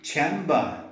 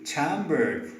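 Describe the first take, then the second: First: Chamber in a British accent, no r sound. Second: Chambered in an American accent, with the r sounded; American chambered ending on a strong r. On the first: Teacher showing British chamber with a silent r. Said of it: "In British English it should be chamber". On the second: Teacher showing American chamber with a sounded r. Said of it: "in American English it should be chambered". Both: Shown as a demonstration.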